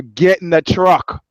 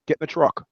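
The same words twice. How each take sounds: First: Slow, louder mock command; insistent retold order. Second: Mildly imitated soldier's order; retold order. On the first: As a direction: repeat the order slowly, brooking no argument. Soldier insists after boy refuses. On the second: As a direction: give the order briskly, lightly acted.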